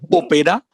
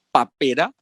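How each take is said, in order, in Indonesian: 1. Vokal pertama bunyinya o. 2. Vokal pertama bunyinya a.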